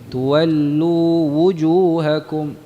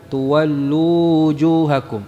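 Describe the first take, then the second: First: The w of wujuhakum is firmly rounded lips. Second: The w of wujuhakum is weak and unrounded. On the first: The speaker calls it right. "kemudian wujuhakum, wawunya dari syafatain" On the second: The speaker calls it wrong. "Jadi bukan tuwallu wujuhakum"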